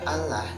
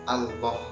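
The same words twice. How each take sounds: First: The l is light and thin. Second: The l is heavy and fills the mouth. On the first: The speaker calls it wrong. "kalau dibaca Allah itu salah ya" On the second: The speaker calls it right. "Jadi tebal, tebal memenuhi mulut"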